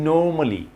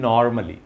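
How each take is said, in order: First: "normally" with a long "no" and no r; correct pronunciation. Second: "normally" with an open "nar" and sounded r; common mispronunciation. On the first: Teacher models the word for learners, correct pronunciation. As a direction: say "normally" as "NAW-muh-lee". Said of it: "So normally". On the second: Teacher mimics what learners say, mispronunciation. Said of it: "আমরা বলি". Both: Shown as a demonstration.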